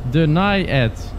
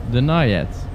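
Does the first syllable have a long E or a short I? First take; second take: short I; short I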